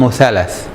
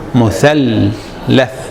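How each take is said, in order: First: The middle L sound is short and single. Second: The middle L sound is held long, doubled. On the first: The speaker calls it wrong. "But that's not the word" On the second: The speaker calls it right. "we spend so much time saying it"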